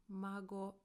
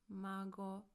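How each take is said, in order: Both takes have the same delivery.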